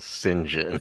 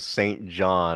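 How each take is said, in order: First: The name is blended into two short syllables. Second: The name is said as two full words. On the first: The speaker calls it right. "you pronounced the name Saint John as Sinjin" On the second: The speaker calls it wrong. "embarrassingly referred to him as Saint John"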